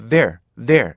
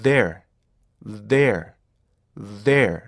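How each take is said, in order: First: "there" in two beats, the end clipped short; two-beat wrong way. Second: "there" in three beats of equal length and force; three even beats. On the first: Teacher showing the wrong two-beat "there". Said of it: "뒤에가 짧아지죠". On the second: Teacher showing the correct three-beat "there". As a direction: give each part of "there" equal weight. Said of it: "똑같은 길에 똑같은 힘으로". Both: Shown as a demonstration.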